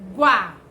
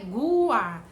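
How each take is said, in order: First: The syllable is said quickly as one sound. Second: The syllable is said slowly and drawn out. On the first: The speaker calls it right. "você fala bem rápido" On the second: The speaker calls it wrong. "Não é Guá"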